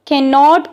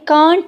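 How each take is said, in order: First: It is said as two full separate words. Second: It is said as one contracted word. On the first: "कैन नॉट को इन्होंने कांट में short कर दिया" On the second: "कांट में short कर दिया"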